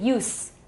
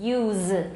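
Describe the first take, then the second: First: The word ends in a voiceless s sound. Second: The word ends in a voiced z sound. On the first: It is the noun. "名词是" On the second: It is the verb. "动词是"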